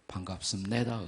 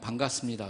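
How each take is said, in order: First: It is said North Korean style, stress at the end. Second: It is said in plain South Korean style.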